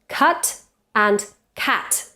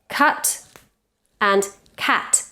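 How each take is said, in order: The two takes are said the same way.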